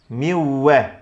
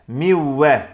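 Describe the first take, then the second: The two takes are said the same way.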